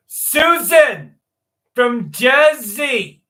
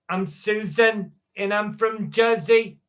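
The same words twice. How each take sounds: First: Put-on loud, slow, drawn-out Jersey accent. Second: Put-on a lighter, slower Jersey accent; a second, gentler try at a New Jersey accent. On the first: Streamer greeting chat in a loud Jersey accent. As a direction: belt it out in a thick New Jersey accent. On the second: Streamer introducing herself to chat in a Jersey accent. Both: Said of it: "That's my best Jersey accent".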